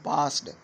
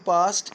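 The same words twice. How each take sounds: First: The word ends with a d sound. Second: The word ends with a t sound.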